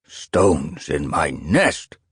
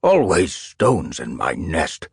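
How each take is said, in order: First: Put-on slow, grumbling old cat; irritable elder. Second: Put-on slow creaky old cat grumbling; croaky irritable elder. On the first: Old elder cat complaining about stones, irritable. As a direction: grumble it out slowly like a cranky elder. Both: A narrator's reading. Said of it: "an elder croaked irritably".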